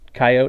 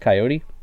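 First: The word is said in a cowboy-like way. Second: The word is said in a plain, local way. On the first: The speaker is trying to sound like a cowboy. The speaker calls it wrong. "Coyote is if you're trying to sound like a cowboy" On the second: The speaker is a local. The speaker calls it right. "East of the Mississippi River, it's Coyote"

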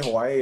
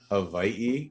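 First: The second consonant is a W sound. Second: The second consonant is a V sound. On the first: "you can say Hawaii if you want" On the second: "the W can be pronounced as a V"

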